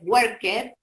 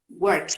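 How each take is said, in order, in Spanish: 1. Se dice como una sílaba separada 'ed'. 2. Se dice como un sonido T corto. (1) "lo pueden pronunciar de manera incorrecta" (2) "la pronunciación es T"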